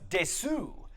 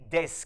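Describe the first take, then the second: First: The final u vowel is clearly voiced. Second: The final u vowel is nearly silent. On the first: The speaker calls it wrong. "you might imagine that that middle word is pronounced desu" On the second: The speaker calls it right. "that U comes out suppressed like this"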